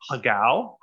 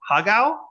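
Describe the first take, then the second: First: Hagao said plainly, flat and settled; his way of saying hagao. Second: Hagao? tried again with a high questioning rise; Hagao? offered up for correction; checking hagao. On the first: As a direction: say hagao as your own version. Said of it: "this is how I say it". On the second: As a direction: ask if Hagao? is right, pitch climbing. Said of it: "Is that good?". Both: Shown as a demonstration.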